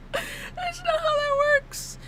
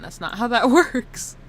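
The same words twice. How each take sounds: First: High, slow, squeaky mock whine; mock crying. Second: Said in the usual way. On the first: Streamer bemoaning her own mistake, high mock crying. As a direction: whimper it in a tiny high voice, mock tearful.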